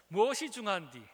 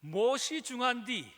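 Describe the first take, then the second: First: 무엇이 중한디 at normal pitch, louder, 무엇이 stressed with a falling end; a lighter Jeolla echo of the line; Jeolla dialect again. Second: 무엇이 중한디 in a slow, louder Jeolla lilt, 무엇이 stressed with a falling end; a light Jeolla accent, slow and emphatic; Jeolla dialect. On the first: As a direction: repeat 무엇이 중한디 in a Jeolla lilt, a little quicker. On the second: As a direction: drawl 무엇이 중한디 like a Gwangju local, leaning on 무엇이. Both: Shown as a demonstration. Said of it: "전라도 사투리로 이 말이 참 저는 마음에 드는데".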